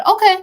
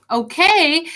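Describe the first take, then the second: First: A bright, high, slightly louder okay, as if it's no big deal; breezy teacher shrugging it off; professor's offhand okay. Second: A higher, slightly miffed okay echoing her; mock-hurt repeat of the teacher's word; mildly frustrated okay. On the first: Retold or imitated. Professor calmly accepts student quitting. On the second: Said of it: "that kinda got me a little frustrated".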